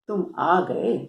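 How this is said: It is said in a mocking, sarcastic tone. The speaker mocks the person's arrival. "यहां थोड़ा सा व्यंग झलकता है।"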